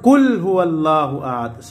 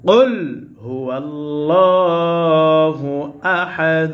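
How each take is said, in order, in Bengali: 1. প্রথম শব্দটি সাধারণ ক দিয়ে শুরু হয়। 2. প্রথম শব্দটি গভীর গলার ক্বাফ দিয়ে শুরু হয়।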